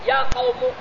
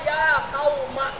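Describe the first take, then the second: First: The last word ends with a u vowel. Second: The last word ends with an a vowel. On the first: "Wajah yang ketiga dibina atas dom" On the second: "munada yang beribadat dibina atas patah"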